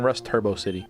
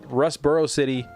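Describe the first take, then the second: First: The middle is said like 'turbo'. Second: The middle is said like 'boro'. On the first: The speaker calls it wrong. "I keep saying Rust Turbo City" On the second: The speaker calls it right. "Rustboro City is what it's called"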